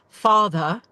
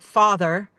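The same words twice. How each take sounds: First: The final R sound is dropped. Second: The final R sound is clearly pronounced. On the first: The speaker calls it wrong. "not going to say father" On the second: The speaker calls it right. "you're going to have to say your R's"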